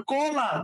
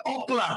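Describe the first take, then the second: First: কলা said as kola, the o after the ka; কলা slow, with the o after ka; correct pronunciation demo. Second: অকলা with an extra o sound before the ka; অকলা said as okola, o first; wrong pronunciation demo. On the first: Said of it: "উচ্চারণ কলা". (কলা, কয়ের পরে অ দিয়ে সঠিক উচ্চারণ) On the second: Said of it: "এটা তো আর অকলা না". (অকলা, কয়ের আগে অ দিয়ে ভুল উচ্চারণ) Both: Shown as a demonstration.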